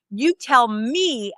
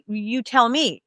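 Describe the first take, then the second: First: "You tell me" slowed right down, YOU and ME leaned on; stress on YOU and ME. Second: Said in the usual way. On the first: Retold or imitated. Counselor correcting a clueless applicant, slow stressed "You tell me". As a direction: spell out who tells whom, stressing "You" and "me". Counselor throws the phrase back.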